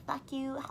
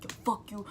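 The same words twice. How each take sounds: First: Higher-pitched, joking swear; playful weird-guy imitation. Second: Understated mock threat in her usual pitch; retold sudden hostility. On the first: Guy friend joking around before he snapped, playfully imitated. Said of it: "that weird kind of vibe". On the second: Retelling a friend switching up over a joke, understated hostility. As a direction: imitate him turning hostile, without shouting. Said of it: "he, like, switched up".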